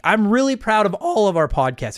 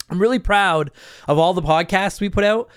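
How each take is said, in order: First: Voice crack. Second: Said in the usual way. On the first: Real, not acted. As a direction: voice cracks mid-sentence. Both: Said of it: "There's the voice crack".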